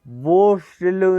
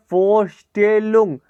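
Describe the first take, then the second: First: वोस्टेलुंग with a v at the start, marked wrong; wrong pronunciation. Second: फोस्टेलुंग with an f sound at the start, slow; फोस्टेलुंग said slowly with f; right pronunciation. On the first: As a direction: say वोस्टेलुंग with v to show the mistake. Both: Shown as a demonstration. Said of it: "वोस्टेलुंग नहीं".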